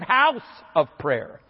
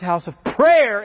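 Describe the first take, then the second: First: The stress falls on the word house. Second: The stress falls on the word prayer. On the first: The focus is on the community being built right. The speaker calls it right. "instead of house of prayer" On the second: The focus is on the praying itself. The speaker calls it wrong. "We emphasize house of prayer"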